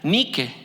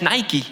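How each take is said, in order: First: It is pronounced the Greek way. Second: It is pronounced the English way. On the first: "En la palabra griega que se pronuncia Nike" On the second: "que en realidad es Nike en inglés"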